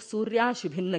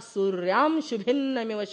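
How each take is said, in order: First: It is said without a nasal m after 'surya'. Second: It is said with a nasal m after 'surya'. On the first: The speaker calls it wrong. "कई लोग सूर्याश भिन्न कहते हैं, ऐसा नहीं।" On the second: The speaker calls it right. "सूर्या के ऊपर अनुस्वार है तो क्या बोलना"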